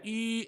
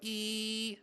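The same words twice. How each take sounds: First: The vowel is rounded and projects well. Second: The vowel is spread and sounds harsh. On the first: The speaker calls it right. "that's the appropriate for E. ... It actually projects better" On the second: The speaker calls it wrong. "see how that sounds terrible? ... irritating"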